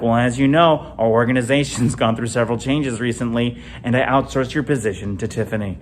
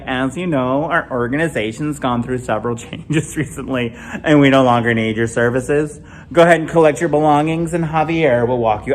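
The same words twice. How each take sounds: First: Flat, formal HR layoff voice; mock corporate termination script; deadpan company-speak breaking the news. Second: Mild corporate HR delivery; lightly voiced manager laying someone off; understated office layoff tone; wife as HR. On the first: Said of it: "we're like". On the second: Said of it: "She's like".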